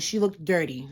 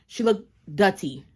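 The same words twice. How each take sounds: First: Said in the usual way. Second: "dirty" said as "DUTTY"; local slang pronunciation. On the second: Shown as a demonstration. Woman naming the other driver in local slang, "dirty" as "dutty". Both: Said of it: "that's what we call it here".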